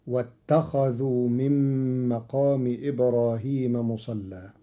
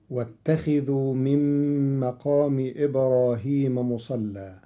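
First: واتخذوا with kha read with fatha, as a past-tense statement; Qalun reading. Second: واتخذوا with kha read with kasra, as the command form; standard reading. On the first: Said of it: "بفتح الخاء على الخبر، فتصير". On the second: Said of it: "قرأ قالون كلمة واتخذوا بفتح الخاء". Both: Shown as a demonstration.

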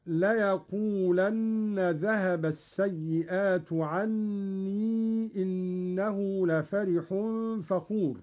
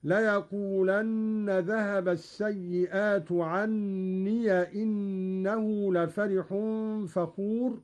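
First: Said in the usual way. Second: Slow recitation, عني as "ʿanniya"; short a on the final ي of عني; Qalun's open ya. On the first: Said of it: "قرأ قالون بفتح ياء عني". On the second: Shown as a demonstration. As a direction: say عني ending "-iya" before إنه. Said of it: "بفتح ياء عني".

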